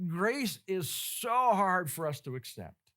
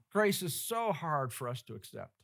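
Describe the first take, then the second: First: Slow, leaning hard on "so" in "Grace is so hard"; slow emphatic. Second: Said in the usual way. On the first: Shown as a demonstration. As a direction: drag it out and press the word "so".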